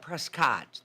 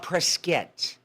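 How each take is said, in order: First: The name is said the outsider way. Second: The name is said the local way. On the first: The speaker calls it wrong. "they don't call it Prescott" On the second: The speaker calls it right. "call it Prescott. ... That's how they pronounce it"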